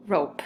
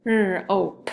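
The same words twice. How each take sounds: First: Said in the usual way. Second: "R-ope" with a held R split from the rest; sounded out. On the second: Shown as a demonstration. Teacher trying another word with pupils, "R-ope" in separate sounds. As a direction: stretch the R, then "ope". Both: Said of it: "let's try another one".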